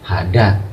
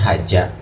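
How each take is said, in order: First: The middle consonant is a 'd' sound. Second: The middle consonant is a 'j' sound. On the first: "atau bukan lagi hada" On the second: "atau bukan haja"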